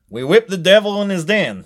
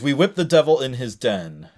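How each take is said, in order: First: It is said in a put-on Alabama accent. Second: It is said in the speaker's ordinary accent.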